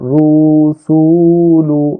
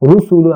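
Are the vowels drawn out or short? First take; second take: drawn out; short. First: The vowels are stretched out long. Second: The vowels are short and said quickly. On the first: The speaker calls it wrong. "বলতেছি না" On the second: The speaker calls it right. "আমি কিন্তু বলতেছি"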